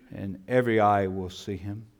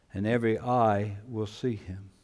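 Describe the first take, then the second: Both takes have the same delivery.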